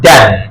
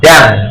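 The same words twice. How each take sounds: First: The vowel is short, like in 'dan'. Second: The same.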